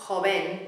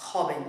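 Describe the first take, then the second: First: "joven" with the beat wrongly on the last syllable; wrong final stress. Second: "joven" with the beat on the first syllable, dropping low; correct first-syllable stress. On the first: Teacher showing what it is not, end stress. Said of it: "It's not joven". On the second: Teacher correcting the rhythm, first-syllable stress. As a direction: hit the start of "joven" and let it fall. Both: Shown as a demonstration.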